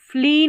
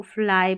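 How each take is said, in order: First: 'फ्ली' higher and louder, ending in a long ee; mispronounced word. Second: 'फ्लाई' ending in the diphthong 'eye'; corrected pronunciation. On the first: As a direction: punch 'फ्ली' as the wrong reading. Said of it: "फ्ली नहीं पढ़ना आपको". ('फ्ली' को लंबी ई से, ज़ोर देकर बोलें) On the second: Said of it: "फ्लाई पढ़ना है". ('फ्लाई' में वाई को आई बोलें) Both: Shown as a demonstration.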